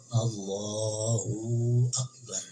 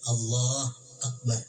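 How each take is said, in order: First: The 'hu' vowel is stretched too long. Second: The 'hu' vowel is dropped entirely. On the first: "hu-nya kepanjangan, waw jadinya" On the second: "jangan dimatiin hu-nya"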